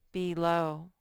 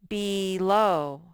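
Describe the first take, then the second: First: Said in the usual way. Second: "Below" loud and stretched, BEEE-LOOW; syllable modelling. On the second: Shown as a demonstration. Teacher presenting a spelling word to children, loud syllable modelling. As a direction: draw out both vowels of "Below" and project them. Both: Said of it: "that's the first syllable".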